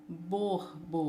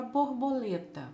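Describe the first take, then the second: First: "Borboleta" split as bor, bo, le, ta; syllable by syllable. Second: Said in the usual way. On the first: Shown as a demonstration. Teacher divides the word for pupils, "Borboleta" in four parts. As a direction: break "Borboleta" into four lower, separate beats. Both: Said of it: "Separando as sílabas".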